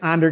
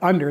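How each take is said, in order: First: The first vowel sounds like the 'a' in 'and'. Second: The first vowel sounds like the 'u' in 'up'. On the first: The speaker calls it wrong. "I want to say Under because it's an A" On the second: The speaker calls it right. "but Under is how you say it"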